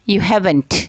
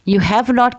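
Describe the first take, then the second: First: The last two words merge with a vowel dropped. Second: All three words are said fully and separately. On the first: "वो आवाज़ उन हर्फ की हटा देते हैं" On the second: "की जगह"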